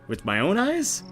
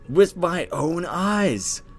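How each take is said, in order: First: It ends with a rising, question tune. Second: It ends with a falling, statement tune.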